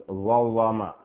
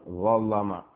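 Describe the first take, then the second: The two takes are said the same way.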